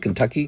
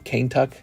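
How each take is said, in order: First: The word is said in the usual modern way. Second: The word is said as two syllables, 'cane tuck'. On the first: This is how people say it today. "instead of Kentucky" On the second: This is how early settlers said it. "the early settlers had a very different version of English"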